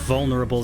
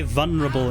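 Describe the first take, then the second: First: The L sound in the word is pronounced. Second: The L sound in the word is dropped. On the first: The speaker calls it right. "There's an L there. Use it" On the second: The speaker calls it wrong. "people say vulnerable"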